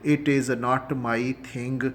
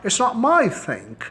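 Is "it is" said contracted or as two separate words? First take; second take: separate; contracted. First: "It is" is said as two separate words. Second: "It is" is contracted into one word. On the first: The speaker calls it wrong. "इट इज़ को अलग अलग ना बोला करें" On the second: The speaker calls it right. "कहा करें इकट्ठा"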